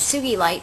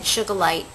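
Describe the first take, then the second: First: The second syllable sounds like 'gi'. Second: The second syllable sounds like 'ga'. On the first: The speaker calls it right. "but it's Sugilite because it's named after the uh, scientist" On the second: The speaker calls it wrong. "sometimes people pronounce it Sugalite"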